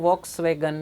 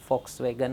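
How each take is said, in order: First: The word begins with a V sound. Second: The word begins with an F sound. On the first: This is how the word is written. "લખો જો વોક્સ વેગન" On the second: This is how the word must be spoken. "મારે બોલાવાનું ફોક્સ વેગન"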